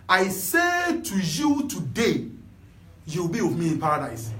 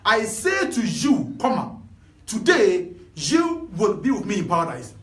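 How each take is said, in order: First: The pause comes after the word today. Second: The pause comes before the word today.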